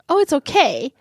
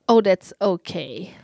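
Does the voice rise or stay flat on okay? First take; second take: rise; flat. First: The voice goes up, sounding upbeat. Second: The voice stays flat and does not go up.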